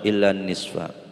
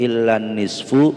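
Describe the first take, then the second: First: The last word ends in an a vowel. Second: The last word ends in an u vowel. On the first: The speaker calls it right. "Harus dibaca nasab" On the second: The speaker calls it wrong.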